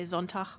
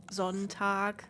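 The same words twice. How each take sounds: First: Sonntag ending in a soft ch sound instead of hard g; northern soft G. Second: Sonntag ending in a hard g, closed like a k; standard hard G. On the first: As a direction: let the end of Sonntag loosen into a throaty ch. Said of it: "uh, I just say Sonntag". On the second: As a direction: say Sonntag with a firm final stop. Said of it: "a hard G doesn't exist for me". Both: Shown as a demonstration.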